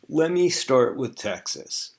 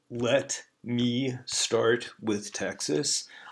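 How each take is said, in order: First: "Let me" is blended into "lemme". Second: "Let me" is said as two separate words. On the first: "what that normally would sound like in the spoken language is" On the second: "you'll notice I didn't say"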